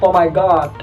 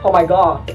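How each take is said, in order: No difference in how they are said.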